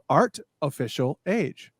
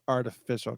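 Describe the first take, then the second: First: Each word is said separately and distinctly. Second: It is run together as a single word. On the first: The title is read as three separate words. "I like pronounced every single word" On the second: The title is a pun on artificial. "Oh, it's artificial"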